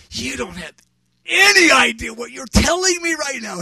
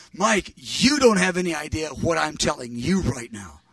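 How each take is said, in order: First: Raised, loud, emphatic disbelief; astonished retort. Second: Controlled retort, stressing YOU in "you don't"; pointed comeback. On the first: Preacher answering his friend's prophecy, astonished outburst. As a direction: burst out louder and higher on ANY IDEA. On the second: Friend correcting the preacher in return, pointed emphasis. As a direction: turn it back firmly, leaning on YOU. Friend turns the words back on him. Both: Retold or imitated.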